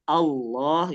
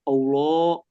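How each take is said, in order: First: The first vowel is said with an open mouth. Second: The first vowel is said with rounded lips. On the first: The speaker calls it right. "A dulu. Allah gitu ya" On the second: The speaker calls it wrong. "dia lafalin Allahnya udah monyong duluan"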